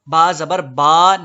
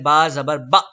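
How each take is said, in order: First: The final vowel is stretched out long. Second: The final vowel is cut off abruptly. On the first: "जबर को इतना मत खींचें कि अलिफ बन जाए" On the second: "ना ही इतनी जल्दी करें कि झटका पैदा हो"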